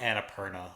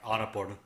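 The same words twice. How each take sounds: First: The name has an anglicized English pronunciation. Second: The name has an Indian Hindi pronunciation. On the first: The speaker calls it wrong. "I'm calling it Annapurna" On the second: The speaker calls it right. "like a real Indian guy"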